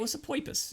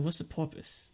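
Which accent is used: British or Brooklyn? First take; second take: Brooklyn; British. First: It is said in a Brooklyn accent. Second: It is said in a British accent. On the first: "it came out like more Brooklyn" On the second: "I guess they dropped the R"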